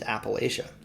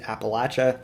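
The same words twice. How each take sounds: First: It uses the northern regional pronunciation. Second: It uses the southern regional pronunciation. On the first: "my pronunciation is more common in the northern part of the region" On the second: "You'll hear that pronunciation more in the south"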